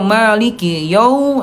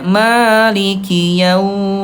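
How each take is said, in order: First: The 'yau' is cut off with a jerk. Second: The 'yau' flows out smoothly and softly. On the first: The speaker calls it wrong. "jangan dihentakkan" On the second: The speaker calls it right. "alirkan dengan lembut"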